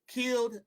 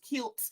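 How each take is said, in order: First: The word ends in a soft D sound. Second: The word ends in a hard T sound. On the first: It is simply the past tense. "past tense" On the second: It emphasizes a violent killing. "I usually put the T on there, um, just for emphasis"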